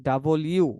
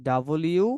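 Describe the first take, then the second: The two takes are said the same way.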